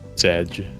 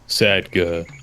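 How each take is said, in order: First: It is said as one syllable. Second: It is said with an extra final syllable. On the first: This is the usual way to say it. "Instead of Sedge" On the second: Someone else believed this was the way to say it. "Somebody was convinced that's how you pronounce it"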